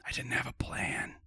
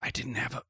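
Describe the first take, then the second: First: Whispered full restart; whispering. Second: Broken-off whisper; whisper, then stop short. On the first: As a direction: whisper the whole line through. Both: Pretend.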